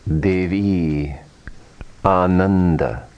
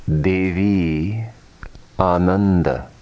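The two takes are said the same way.

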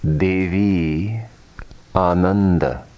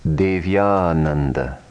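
First: The two words are kept apart. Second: The words are joined with a y sound.

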